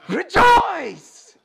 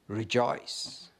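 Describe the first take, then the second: First: It is said with great excitement. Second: It is said flatly, without excitement.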